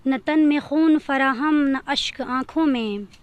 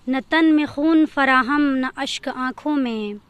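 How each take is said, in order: Both takes have the same delivery.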